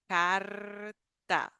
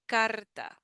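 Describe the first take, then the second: First: The R is strongly trilled and drawn out. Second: The R is short, light, and quicker.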